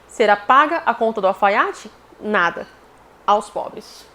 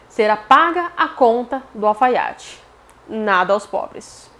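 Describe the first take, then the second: First: There is a pause between nada and aos pobres. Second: Nada aos pobres is said as one phrase.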